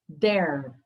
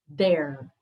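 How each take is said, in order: Both takes have the same delivery.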